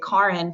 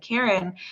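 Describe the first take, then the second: First: The name is said with the family's non-American vowels. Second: The name is said with ordinary American English vowels. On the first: This is how her parents say her name. The speaker calls it right. "they always pronounced it that way" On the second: This is how other people read her name. The speaker calls it wrong. "you do kind of get an Americanized version of your name"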